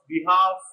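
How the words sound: It is said with a British accent.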